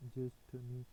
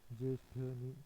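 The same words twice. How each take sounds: The two takes are said the same way.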